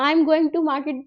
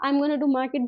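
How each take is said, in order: First: "going to" spoken slowly and fully; slow, careful full form. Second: "gonna" run together quickly and casually; relaxed short form. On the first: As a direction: spell out "I am going to market" carefully. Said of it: "है ना, तो". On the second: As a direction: say "I am gonna do market" loosely, like chat. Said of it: "भी बोल सकते हो". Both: Shown as a demonstration.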